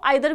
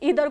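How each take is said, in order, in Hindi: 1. पहला स्वर 'eye' जैसा सुनाई देता है। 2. पहला स्वर 'ee' जैसा सुनाई देता है। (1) "ईदर को आइदर भी हम बोलते हैं" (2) "ईदर को आइदर भी हम बोलते हैं"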